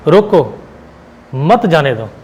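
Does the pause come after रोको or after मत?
after रोको. The pause comes after रोको.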